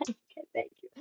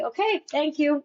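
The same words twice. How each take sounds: First: Voiceless, far softer whisper. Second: Said in the usual way. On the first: Retold or imitated. Thanking the panel on her way out, a tiny whisper. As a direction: mouth it back in a sheepish whisper.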